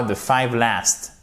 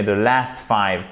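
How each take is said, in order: First: "five last" said as the mistake, "five" before "last"; learner's error "five last", quoted for correction; wrong word order. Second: "last five" said as the fix, "last" before "five"; teacher's correction "last five", firmly placed; corrected word order. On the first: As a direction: cite "the five last" as what not to say. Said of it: "c'est pas". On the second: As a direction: give "the last five" as the right version. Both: Shown as a demonstration.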